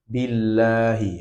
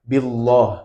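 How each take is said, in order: First: The L sound is thin and light. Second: The L sound is thick and heavy. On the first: The speaker calls it right. "tapi tipis" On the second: The speaker calls it wrong. "bukan billah, bukan seperti itu"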